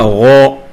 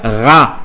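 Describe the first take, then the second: First: The vowel sounds like a heavy 'o'. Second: The vowel sounds like a light 'a'. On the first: The speaker calls it right. "Il faut lire Ro" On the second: The speaker calls it wrong. "il ne faut pas lire Ra"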